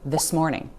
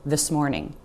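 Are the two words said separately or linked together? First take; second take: linked; linked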